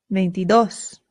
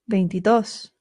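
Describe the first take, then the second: No difference in how they are said.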